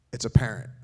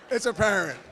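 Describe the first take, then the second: First: Deadpan punchline. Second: Repeated punchline with a laugh. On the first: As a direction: drop the punchline low and flat, falling. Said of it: "All right". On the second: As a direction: say it again higher, chuckling through it. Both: Shown as a demonstration.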